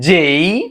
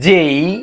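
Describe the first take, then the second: No difference in how they are said.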